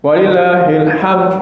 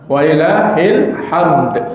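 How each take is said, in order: First: The word ends without a final d sound. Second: The word ends with a clear final d sound. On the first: The speaker calls it wrong. "jangan walillahil ham" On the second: The speaker calls it right. "belakangnya ada dal ya"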